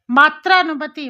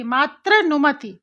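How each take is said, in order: First: Said in the usual way. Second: मातृनुमति said slowly, each syllable drawn out; slow sounding-out. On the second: Shown as a demonstration. Teacher to pupils, showing मातृ sounded clearly, slowly. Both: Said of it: "त्रा आ गया".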